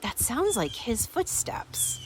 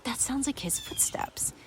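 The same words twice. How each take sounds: First: Higher, slow, voiced retold thought; wondering aloud, pitched up and drawn out; slowly puzzling it out in a higher voice; surprised realization. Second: Hushed, acted whisper; retold thought under the breath, whispered; whispered realization. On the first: Retold wife hearing footsteps return. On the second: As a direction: whisper it as a private, startled thought.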